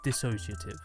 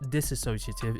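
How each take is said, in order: First: No extra syllable follows the first one. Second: An extra syllable is inserted after the first one. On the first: The speaker calls it right. "it's dissociative" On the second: The speaker calls it wrong. "It's not disassociative"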